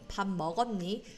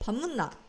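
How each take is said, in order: First: It is said in standard Korean. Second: It is said in Gyeongsang dialect. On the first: "밥 먹었니 is like standard Korean" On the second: "밥 묻나 is more like the proper Gyeongsang province dialect"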